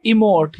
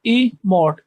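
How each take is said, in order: First: Said in the usual way. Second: "ई मोट" with a gap after ई; syllables separated. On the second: Shown as a demonstration. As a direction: say "ई मोट" as two separate beats. ("ई मोट" में ई अलग, मोट अलग) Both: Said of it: "ई अलग बोला जाएगा".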